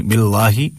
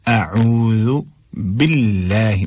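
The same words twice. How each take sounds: First: "बिल्लाही" with dark heavy l; thick lam. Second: Slow "अऊज़ु बिल्लाही", l kept light; thin lam. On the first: Teacher warning against it, "बिल्लाही" with thick lam. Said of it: "नहीं पढ़ना है". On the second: Teacher modelling for students, "अऊज़ु बिल्लाही" slow with thin lam. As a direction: stretch "बिल्लाही" with a thin fronted aa. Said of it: "बिल्कुल बारीक करके पढ़ना है". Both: Shown as a demonstration.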